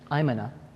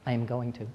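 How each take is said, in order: First: The words are fused into one short reduced form. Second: Each word is said separately in full.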